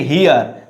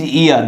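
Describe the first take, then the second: First: HERE with the H breathed at the start; wrong sounded H. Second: EAR begun straight on the vowel; silent H. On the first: Teacher warns students off the mistake, HERE with H. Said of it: "Don't say here". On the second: Teacher corrects for students, EAR with silent H. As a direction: say EAR with no H at all. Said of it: "This is ear". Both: Shown as a demonstration.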